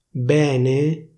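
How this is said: The stressed E is pronounced open. This is the official standard pronunciation. "invece di dire bene"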